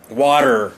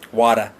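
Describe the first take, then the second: First: The final R sound is strong. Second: The final R sound is dropped. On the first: "We usually make that R sound at the end of words very strong" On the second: "the British people sometimes uh, drop their R sounds"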